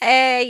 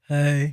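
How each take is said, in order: First: It sounds bright and cheerful. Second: It sounds flat and deflated.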